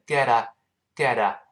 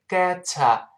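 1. t 被浊化成了轻的 d 音。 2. t 读作清晰的 t。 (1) "读快了之后那个t 又会浊化" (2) "本来应该是get a"

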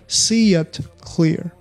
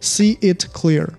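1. y 音过渡把 see 和 it 连起来。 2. ‘it’ 前面不带 y 音过渡。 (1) "中间加了y 这个音" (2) "不读作see it clear"

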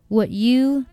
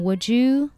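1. 这两个词分开读，不连读。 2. 这两个词连成一个音。

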